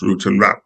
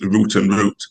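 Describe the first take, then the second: First: The second word sounds like 'rout', unlike the first. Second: Both words sound identical, like 'root'. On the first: The alliteration does not quite work. "But in American English, it's root and route" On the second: The phrase forms a neat alliteration. "In English English, it's a nice alliteration"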